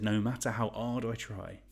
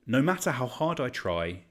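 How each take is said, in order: First: "hard" said without its H, as in Cockney; dropped H. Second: Said in the usual way. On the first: Shown as a demonstration. Quizmaster showing his Cockney slip, dropped H on "hard". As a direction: drop the H clean off "hard". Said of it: "I accidentally dropped the H on hard. I went Cockney". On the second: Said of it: "I accidentally dropped the H on hard".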